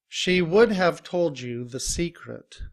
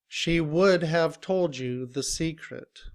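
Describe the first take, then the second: The two takes are said the same way.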